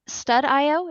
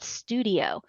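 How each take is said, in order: First: The ending is said as the letters I-O. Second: It is said like the ordinary word studio. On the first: "StudIO is a play on words" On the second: "which I always call it Studio"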